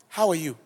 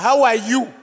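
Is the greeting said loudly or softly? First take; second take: softly; loudly. First: The greeting is said at ordinary volume. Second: The greeting is said at raised volume.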